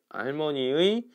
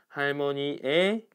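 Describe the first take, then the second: First: The final particle is pronounced 'ui'. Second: The final particle is pronounced 'e'. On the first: "요렇게 발음해도 되고" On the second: "에로 발음할 수 있다고 했잖아"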